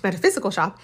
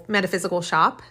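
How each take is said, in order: First: Metaphysical stressed, quick and amused; correcting medical to metaphysical with a laugh; laughing self-correction. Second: Said in the usual way. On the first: Real, not acted. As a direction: fix the slip, leaning on metaphysical. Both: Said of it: "not medical, metaphysical shop".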